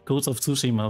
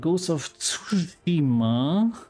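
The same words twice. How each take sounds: First: The name is pronounced in a normal way. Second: The name is pronounced in an odd way. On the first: The speaker calls it right. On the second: The speaker calls it wrong. "Und das habe ich jetzt aber komisch ausgesprochen"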